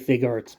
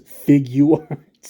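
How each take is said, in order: First: The name begins with a short 'fig' sound. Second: The name begins with a 'figure' sound. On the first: The speaker calls it wrong. "I know you want to say Fig Arts" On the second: The speaker calls it right. "it's Figuarts, like figure arts"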